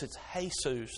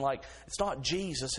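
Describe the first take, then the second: First: Jesus said hay-soos with an H sound; Spanish Jesus, soft H, hay-soos. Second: Jesus with an English J, jee-zus; plain English Jesus, J as in jar. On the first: The kind man showing the Spanish H sound. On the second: The kind man contrasting Jesus with English J. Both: Shown as a demonstration. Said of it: "those J's have an H sound".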